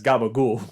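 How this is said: Voiced consonants, with the final vowel dropped. The speaker calls it wrong. "Italian Americans pronounce it as gabagool"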